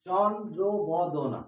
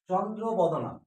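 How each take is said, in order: First: চন্দ্রবদনা stretched out, very slow, syllable by syllable; slow, careful teaching voice; slowly split into syllables. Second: Said in the usual way. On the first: Shown as a demonstration. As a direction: spell চন্দ্রবদনা out slowly so the students hear each part. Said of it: "এখানে আমরা দেখতে পাচ্ছি দুটো বর্ণ আছে".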